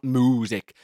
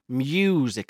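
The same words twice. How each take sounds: First: The first syllable sounds like a cow's moo. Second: The first syllable is said in a normal way. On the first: The speaker calls it wrong. "not music" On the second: The speaker calls it right. "Music, not music"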